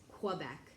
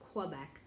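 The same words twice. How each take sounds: First: It is said the common American way. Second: It is said the common American way.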